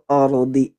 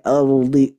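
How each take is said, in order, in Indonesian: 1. Huruf vokal pertama terdengar ringan dan jelas. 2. Huruf vokal pertama terdengar berat dan gelap. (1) "Jadi yang tebal itu ro-nya, bukan A-nya" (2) "tidak boleh ardi"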